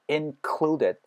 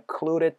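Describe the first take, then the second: First: The d in the middle is a clear d. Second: The d in the middle is a soft flap.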